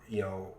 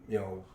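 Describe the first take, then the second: The two takes are said the same way.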